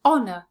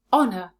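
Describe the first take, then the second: First: "Honour" with ON punched loud; stress on first syllable. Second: "Honour" said as ON-er, H silent. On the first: Teacher answering where the stress falls, stressing ON. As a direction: hit the ON of "Honour". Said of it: "Where is the stress?". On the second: Teacher modelling the blended word, silent H. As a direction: drop the H in "Honour". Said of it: "Let's put them together". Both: Shown as a demonstration.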